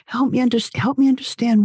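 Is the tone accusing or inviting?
inviting. It is said in a warm, inviting tone. The speaker genuinely wants to learn the listener's thoughts. The speaker calls it right. "with an inviting, inquiring tone of voice"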